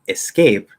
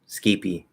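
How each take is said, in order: First: It starts with a vowel and ends on p. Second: It starts with s and ends with an ee. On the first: "instead of saying escape" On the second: "That sounds very Portuguese to me, like Portuguese accent"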